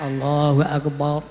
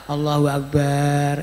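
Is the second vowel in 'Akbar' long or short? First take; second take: short; long. First: The vowel in Akbar is held short. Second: The vowel in Akbar is drawn out long. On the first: The speaker calls it right. "kudune cekak" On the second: The speaker calls it wrong. "Mbok dawakno"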